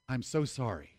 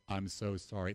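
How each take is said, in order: First: It is said warmly, with real feeling. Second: It is said flatly, like a robot. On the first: The apology is truly felt. The speaker calls it right. "You need to be sorry" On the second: The apology is not really felt. The speaker calls it wrong. "This is not robotic"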